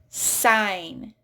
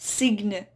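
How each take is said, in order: First: No G sound is pronounced. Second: A G sound is pronounced. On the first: The speaker calls it right. "Silent G in there" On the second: The speaker calls it wrong. "not signe"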